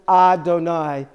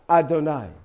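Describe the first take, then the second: First: The first vowel is long and drawn out. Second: The first vowel is short and cut off. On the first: The speaker calls it wrong. "We wouldn't pronounce it Adonai" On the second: The speaker calls it right. "We'd pronounce it Adonai. ... it just like cuts it cuts it off"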